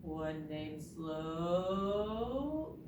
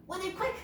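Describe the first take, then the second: First: Very slow and drawn out; dragging, sluggish delivery; real slow. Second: Quick, high burst; zippy high delivery; fast. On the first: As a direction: stretch SLOW right out. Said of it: "Can you say it real slow?". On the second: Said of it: "That was fast". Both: Shown as a demonstration.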